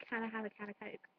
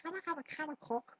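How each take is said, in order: First: "Coke" with its long o; softly said, "Coke" rhyming with "oak"; intended Coke. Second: "Coke" with a short vowel, like "cock"; raised pitch, "Coke" shortened to "cock"; mispronounced Coke. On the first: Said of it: "But I was trying to say". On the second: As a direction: botch "Coke" with a short open o. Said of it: "but it came out as". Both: Shown as a demonstration.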